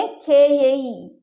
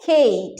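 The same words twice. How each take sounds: First: Very slow, spelling out खे ये ई; slow teacher demo; slowed for learners. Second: Fast, खे ई run together; natural fast speech; quick natural form. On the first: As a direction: stretch खे ये ई syllable by syllable. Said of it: "हम इसलिए ऐसे बोले कि आप लोग को समझ में आए". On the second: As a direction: say खे ई quickly as one unit. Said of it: "उसको जल्दी बोलेंगे". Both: Shown as a demonstration.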